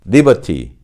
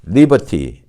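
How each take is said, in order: The two takes are said the same way.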